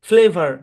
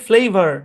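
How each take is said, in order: No difference in how they are said.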